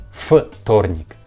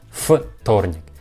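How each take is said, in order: No difference in how they are said.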